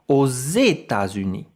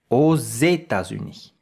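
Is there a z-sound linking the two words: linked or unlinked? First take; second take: linked; linked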